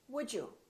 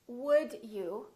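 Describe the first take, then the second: First: The D and you blend into one sound. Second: The D and you are said separately. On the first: "becomes would you" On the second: "Would you becomes"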